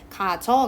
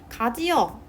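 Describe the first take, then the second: First: It is said as two syllables, contracted. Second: It is said with three separate syllables. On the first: "줄이면 가저가 되고" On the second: "가지어 줄이면"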